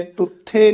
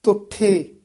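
First: ਟੁੱਠੇ starting with a hard retroflex t; wrong consonant shown. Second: Tongue on the teeth for the first t of ਤੁੱਠੇ; careful falling ਤੁੱਠੇ with dental t. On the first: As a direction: curl the tongue back for the first t of ਟੁੱਠੇ. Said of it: "ਨਹੀਂ ਕਹਿਣਾ". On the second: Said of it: "ਤੱਤੇ ਨਾਲ ਉਚਾਰਨ". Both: Shown as a demonstration.

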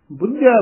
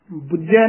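First: ਬੁੱਝੈ with a tight doubled jh; correct pronunciation. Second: ਬੁੱਝੈ said loosely the wrong way; wrong pronunciation. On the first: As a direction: press ਬੁੱਝੈ firmly. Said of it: "ਬੁੱਝੈ ਉਚਾਰਨ ਕਰਨਾ". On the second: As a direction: demo of the mistaken ਬੁੱਝੈ. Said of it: "ਨਹੀਂ ਕਹਿ ਦੇਣਾ". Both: Shown as a demonstration.

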